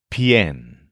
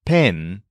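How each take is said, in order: First: Pien with a y glide before the e; lower, isolated demo syllable pien; bent vowel. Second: Pen with a pure e, no glide; isolated demo syllable pen, unbent vowel; plain e vowel. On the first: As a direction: say pien as one syllable, pyen. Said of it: "we actually bend the vowel". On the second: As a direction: say pen straight, without a y. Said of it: "change it from pen to pien". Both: Shown as a demonstration.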